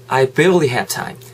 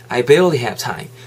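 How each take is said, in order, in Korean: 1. barely에 강세가 있고, have time은 이어서 발음해요. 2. barely에 강세가 있고, have time은 이어서 발음해요.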